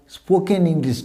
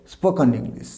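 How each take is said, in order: First: "স্পোকেন" said spo-ken, full e; full ken in "স্পোকেন" before English; wrong pronunciation. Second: "স্পোকেন" said spo-kuhn, weak last vowel; reduced kun in "স্পোকেন" before English; correct pronunciation. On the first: Teacher banning the usual form, full-vowel ending. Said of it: "স্পোকেন English নয়". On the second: Teacher modelling it for students, reduced ending. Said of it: "উচ্চারণ কী হবে?". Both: Shown as a demonstration.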